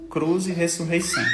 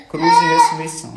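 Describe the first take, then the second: First: Said in the usual way. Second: Much higher and louder, almost sung out; emphatic proclamation. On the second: Real, not acted. Father declaring faith to viewers, high exultant proclamation. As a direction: proclaim it triumphantly, voice lifting. Repeats motto, second time proclaimed.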